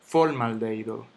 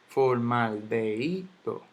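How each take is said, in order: First: "formaldehído" stressed on FOR, FOR-maldeido; mis-stressed "formaldehído" as FÓRmaldeido; wrong first-syllable stress. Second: "Formaldehído" slowly broken up, for-mal-de-I-do; careful teacher's breakdown of "Formaldehído"; syllable by syllable. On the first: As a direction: hit FOR hard in "formaldehído". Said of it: "yo no digo". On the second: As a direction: sound out "Formaldehído" slowly, leaning on the I. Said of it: "vamos a analizar esta palabra". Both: Shown as a demonstration.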